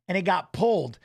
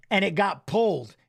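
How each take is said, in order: Both takes have the same delivery.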